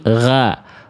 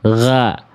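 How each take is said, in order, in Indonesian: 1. Vokalnya adalah a yang tipis dan murni. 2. Vokalnya adalah a yang tipis dan murni.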